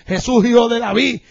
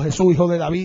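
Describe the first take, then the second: First: The call is said much louder. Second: The call is said at normal volume.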